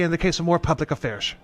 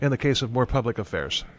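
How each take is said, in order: First: It is said in a put-on British accent. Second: It is said in the speaker's usual accent.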